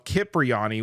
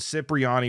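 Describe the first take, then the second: First: The name begins with a K sound. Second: The name begins with an S sound. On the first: "with a hard C K in the front" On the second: "with an S sound"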